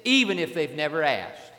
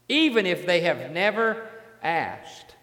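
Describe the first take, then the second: First: Said in the usual way. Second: Slow and deliberate, "never" leaned on; stress on never. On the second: Shown as a demonstration. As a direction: spell out "Even if they have never asked" word by word. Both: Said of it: "Listen to this".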